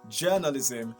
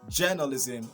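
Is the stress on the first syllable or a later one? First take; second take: first; first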